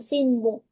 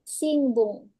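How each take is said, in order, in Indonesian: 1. Sengaunya bunyi n biasa. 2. Bunyinya seperti ng. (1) "Si e si n baru bun" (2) "kalau orang Jepang ngomong itu jadi Sinbung. Dan itu jadi nge"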